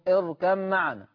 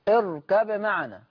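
First: The b is merged into a doubled m. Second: The b is pronounced clearly before the m. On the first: "حفص أضغم، أهو اركم معنا" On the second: "ورش أظهر"

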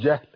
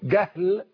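First: The first consonant is a soft j sound. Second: The first consonant is a hard g sound. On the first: "مش هقول جهل" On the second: "وأنا بنطقها بالجيم المصرية عشان تبقى واضحة قوي"

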